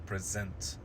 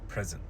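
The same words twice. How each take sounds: First: The stress is on the second syllable. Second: The stress is on the first syllable. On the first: It is the verb. "we have to put the stress on the second syllable" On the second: It is the noun. "change and shift the stress"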